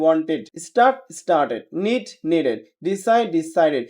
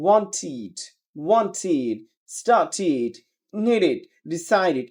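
First: "wanted" said with -ed as ed; "started" "needed" ending in ed, wrong; common wrong -ed. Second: "wanted" ending in short id, wantid; "needed" "decided" ending id, not ed; correct -ed. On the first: Teacher models common wrong -ed ending, ed. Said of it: "আমরা বলি". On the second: Teacher models correct -ed ending, id sound. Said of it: "সঠিক উচ্চারণ হবে". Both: Shown as a demonstration.

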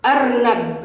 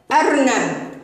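First: Said in the usual way. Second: Slow blended reading. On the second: Shown as a demonstration. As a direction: read the word slowly, stretched. (قراءة أرنب ببطء) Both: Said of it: "هيا نقرأ هذه الكلمة".

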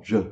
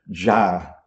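First: "ja" said briefly as juh; short A. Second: "ja" drawn out as jaa; long A. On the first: Teacher isolates the Hindi ending, short vowel on "ja". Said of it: "com A curto no final". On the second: Teacher contrasts the Sanskrit ending, long vowel on "ja". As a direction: hold the open vowel of "ja". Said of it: "Enquanto que em sânscrito é". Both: Shown as a demonstration.

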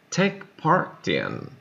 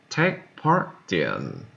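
First: Said in the usual way. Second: Slowly, with the stress landing on "part" in "Take part in"; slow, stressed repeat. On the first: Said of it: "teacher models phrase for repetition". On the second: Shown as a demonstration. Teacher repeating "Take part in" slowly for learners, stress on "part". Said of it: "teacher repeats phrase slower for learners".

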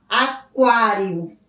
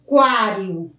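First: "aquário" very slow, a-KWA-rio with the u clearly sounded; slow pronunciation demo. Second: Said in the usual way. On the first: Shown as a demonstration. Teacher repeats the word slowly so pupils hear the u. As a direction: drag the word out so the kw stands out. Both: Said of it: "nós pronunciamos o U".

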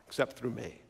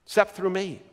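First: Very soft, low aside; hushed. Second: Said in the usual way. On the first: Acted. Preacher quoting Jesus to the congregation, hushed. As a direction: drop right down to a hush.

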